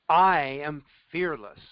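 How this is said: It is said firmly, with full conviction.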